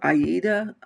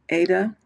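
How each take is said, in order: First: It is said as three syllables, ah-EE-da. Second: It is said as two syllables, AY-da. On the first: This is how someone else says it. "Jean Farish always says Aida" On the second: This is the speaker's own usual pronunciation. "I pronounce it Ada"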